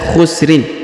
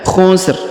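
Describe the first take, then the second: First: The word ends with a vowel and n. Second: The word ends on a bare r sound. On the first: The verse runs on into the next one. "Kita bisa menyambungnya" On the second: The reader stops at the end of the verse. "ro atau rin di sini disukunkan"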